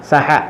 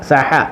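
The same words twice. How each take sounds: Both takes have the same delivery.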